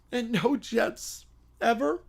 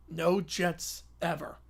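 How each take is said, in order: First: Said in the usual way. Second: Slow, soft and solemn, No leaned on; a quiet solemn vow. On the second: Acted. Kids swearing off the Jets, slow solemn vow. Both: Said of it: "They all nod solemnly".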